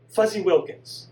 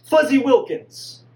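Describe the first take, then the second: First: Said in the usual way. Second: Higher, louder, slow call to stop her; desperate shout. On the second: Acted. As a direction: yell the name before she hangs up. Son shouts to stop hang-up.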